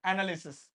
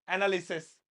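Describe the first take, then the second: First: एनालिसिस ending in a clear "sis", said as the wrong form; wrong singular ending. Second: एनालिसिस ending in "ses", as "ana-li-ses"; plural ending. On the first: Teacher shows students the wrong "sis" ending. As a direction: say एनालिसिस with "sis", not "ses". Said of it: "सिस नहीं". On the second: Teacher shows students the plural "ses" ending. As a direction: end एनालिसिस on a clear "ses". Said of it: "सेस।". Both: Shown as a demonstration.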